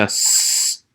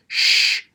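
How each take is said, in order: First: Drawn-out "s", like sss with no vowel; bare s sound. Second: Drawn-out "sh", like shhh with no vowel; bare sh sound. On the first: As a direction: isolate "s" as a held sibilant. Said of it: "makes a s sound". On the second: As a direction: isolate "sh" as a held hushing consonant. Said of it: "makes a sh sound". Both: Shown as a demonstration.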